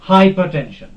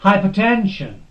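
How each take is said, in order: First: The stress is not on the syllable ten. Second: The stress is on the syllable ten. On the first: The speaker calls it wrong. "not hypertension. This is wrong" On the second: The speaker calls it right. "the stress will be on this ten"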